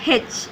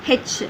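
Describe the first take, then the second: The two takes are said the same way.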